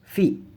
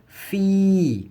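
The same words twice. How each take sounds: First: The vowel is cut short. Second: The vowel is held long. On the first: The speaker calls it wrong. "bukan dibaca" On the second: The speaker calls it right. "Maka ini juga dibaca panjang"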